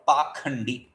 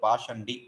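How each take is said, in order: First: The middle consonant is a 'kh' sound. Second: The middle consonant is a 'sh' sound. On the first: The speaker calls it wrong. "Pashandi is a is mispronounced as pakhandi" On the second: The speaker calls it right. "That's a beautiful word"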